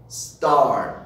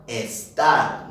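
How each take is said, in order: First: The word begins directly with the s sound. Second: An extra e vowel comes before the s. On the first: The speaker calls it right. "It's pronounced star" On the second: The speaker calls it wrong. "It's not estar. No se dice estar"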